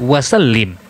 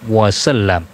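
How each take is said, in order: First: The last syllable is said with an i vowel. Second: The last syllable is said with an a vowel. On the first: The speaker calls it wrong. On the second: The speaker calls it right.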